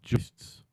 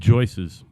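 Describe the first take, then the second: First: The word is said as one syllable. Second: The word is said as two syllables. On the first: The speaker calls it right. "He says he can't say the word joists" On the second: The speaker calls it wrong. "Sounds like it's Joyce's keys"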